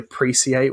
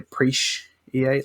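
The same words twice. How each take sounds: First: The middle consonant is a plain s sound. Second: The middle consonant is an sh sound. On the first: The speaker calls it wrong. "we don't say appreciate" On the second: The speaker calls it right. "we say appreciate, like it's S H"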